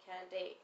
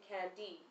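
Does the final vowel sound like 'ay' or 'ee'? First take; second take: ay; ee. First: Speaker's own accent, final vowel sounds like 'ay'. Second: American accent, final vowel sounds like 'ee'.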